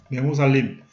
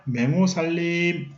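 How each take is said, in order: First: Said in the usual way. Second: 맹호살림 stretched out slowly, syllable by syllable; slow drawn-out term. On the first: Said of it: "teacher repeats term again". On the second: Shown as a demonstration. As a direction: spell out 맹호살림 slowly for the class. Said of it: "teacher repeats term slowly".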